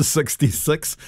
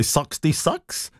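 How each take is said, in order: First: Said in the usual way. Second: SIXTY-SIX with flattened Kiwi i's, like "suxty-sux"; exaggerated Kiwi vowels. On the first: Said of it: "for sixty-six". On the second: Shown as a demonstration. Presenter reading a listener's bingo-calling story, exaggerated Kiwi vowels. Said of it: "learn not to say".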